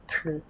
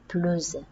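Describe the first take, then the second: First: The final S is silent. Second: The word ends in a Z sound. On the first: The meaning is negative: no more. "on ne va pas prononcer le S" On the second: It links to a following vowel. "prononcer le S comme Z"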